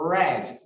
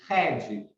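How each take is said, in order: First: The r at the start sounds English. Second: The r at the start sounds foreign. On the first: The speaker calls it right. "a pronúncia do R, er, er" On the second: The speaker calls it wrong. "a gente não pode falar, por exemplo, red"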